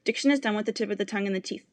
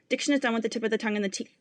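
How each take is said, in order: No difference in how they are said.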